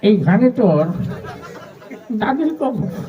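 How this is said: The line is recited in an old, mumbling voice. An old man is reciting while chewing. "একজন মুরব্বী মানুষ আসছে পান খেতে খেতে"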